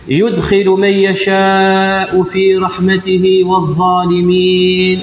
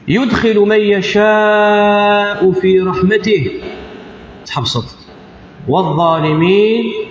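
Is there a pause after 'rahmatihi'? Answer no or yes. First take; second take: no; yes. First: It runs on without a pause after rahmatihi. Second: There is a pause after the word rahmatihi. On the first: The speaker calls it wrong. "لو كانت تكمل" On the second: The speaker calls it right. "تحبسط"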